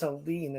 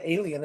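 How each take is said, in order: First: "Aileen" said in two syllables, ending in a long -leen; corrected pronunciation. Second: "Alien" said AY-lee-un, like the space creature; wrong pronunciation. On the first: Correcting the host on a name, "Aileen" ending in -leen. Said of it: "It's not Alien". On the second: Correcting the host on a name, "Alien" as AY-lee-un. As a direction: say "Alien" in three syllables, AY-lee-un. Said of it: "it's Aileen, isn't it". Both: Shown as a demonstration.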